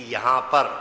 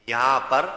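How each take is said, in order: No difference in how they are said.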